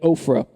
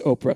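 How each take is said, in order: First: The name has an f sound in the middle. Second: The name has no f sound in the middle. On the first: The speaker calls it right. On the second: The speaker calls it wrong.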